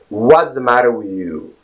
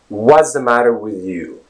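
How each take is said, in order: First: The opening W is said with rounded lips. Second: The same.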